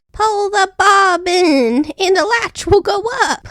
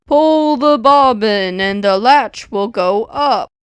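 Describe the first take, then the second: First: Put-on high, slow old woman calling; the grandmother calling from bed, high and slow. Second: Slow, softened wolf voice; a wolf forcing his voice gentle; the wolf faking the sick grandmother, slow and softened; wolf softening his voice. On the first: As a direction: sing out instructions like a frail granny. Grandmother cried out. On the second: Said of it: "softening his voice as much as he could". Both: A narrator's reading.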